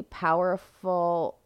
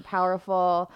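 First: Barely voiced, struggling for breath; strained whisper. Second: Said in the usual way. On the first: Real, not acted. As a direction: push the word out in a faint whisper. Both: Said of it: "I, like, could barely get that out".

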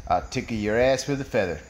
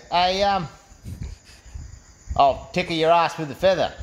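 First: Low, assured delivery of a chat-up line; cool joke-character come-on; confident pick-up line. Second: Hesitant pick-up attempt with a long pause; mildly nervous, acted chat-up line. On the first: Acted. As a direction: drop the pitch and say it smoothly. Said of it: "and he goes". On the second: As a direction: stall on the um, then get the line out. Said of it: "Cam's a little bit nervous".

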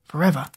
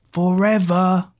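First: Said in the usual way. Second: Slow, drawn-out call into the tunnel; a mild shouted farewell. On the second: A narrator's reading. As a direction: call the word back after her. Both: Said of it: "Zack shouted behind".

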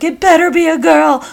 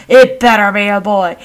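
First: High, excited voice of a sister placing her bet; insistent sister. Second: Insistent brother. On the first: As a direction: imitate a sister insisting, pitched well up. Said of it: "My sister's like". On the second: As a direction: imitate a brother firmly arguing back. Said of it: "My brother". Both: Retold or imitated.

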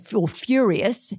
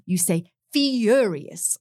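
First: "furious" said the ordinary northern way; everyday "furious"; plain furious. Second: "furious" drawn out slowly, vowels rounded like the Queen; slow, plummy "furious"; posh furious. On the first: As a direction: say "furious" as most people do. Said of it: "like we all say". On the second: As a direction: stretch "furious" in a mock royal accent. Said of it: "sorry, mine's not very good". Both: Shown as a demonstration.

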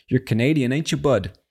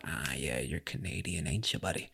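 First: Higher, fuller playful voice; pitched-up playful repeat. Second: Much lower and softer, playful murmur; low aside. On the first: Host repeats his greeting to a Canadian, pitched-up and playful. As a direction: lift the pitch and tease. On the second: Host imagines greeting the Canadian from the clip, low aside. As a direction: drop it right down, almost to yourself. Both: Pretend.

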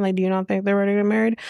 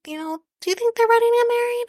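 First: Quick, rushed comeback, words tumbling out; rapid retort. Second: Much higher, fast and mocking, imitating Claire's fake concern. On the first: Retold or imitated. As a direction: fire the question back fast. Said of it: "And she's like". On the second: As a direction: squeak it out like a nosy guest. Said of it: "she's basically saying".

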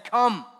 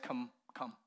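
First: Loud, high call of come; Jesus calling Peter out over the waves; voice in the darkness. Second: Soft, inviting come; Jesus quietly beckoning Peter; gentle invitation. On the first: Acted. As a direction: call across the dark water. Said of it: "a voice in the darkness saying". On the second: Shown as a demonstration. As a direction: coax him over kindly. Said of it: "the spirit or the tone with which Jesus said".

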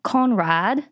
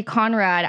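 First: Slow, lightly British Conrad; mock British accent. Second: Said in the usual way. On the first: Shown as a demonstration. Host tries the name in a British accent. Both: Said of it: "I just think it needs a British accent".

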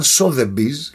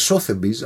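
First: "Sotheby's" the way it was taught; corrected pronunciation. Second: "Sotheby's" the way first assumed; mistaken pronunciation. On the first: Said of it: "από ό,τι μου είπαν". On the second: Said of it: "νόμιζα ότι προφέρεται". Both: Shown as a demonstration.

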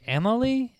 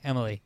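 First: Emily said high with a questioning rise; unsure name. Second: Said in the usual way. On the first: Real, not acted. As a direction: try out Emily as if asking. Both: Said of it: "I'm gonna call her Emily".

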